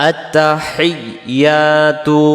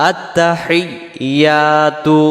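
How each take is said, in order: The two takes are said the same way.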